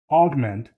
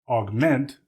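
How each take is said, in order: First: The stress is on the first syllable. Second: The stress is on the second syllable. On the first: It is used as a noun. "is a noun" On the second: It is used as a verb. "the second syllable being stressed, is a verb"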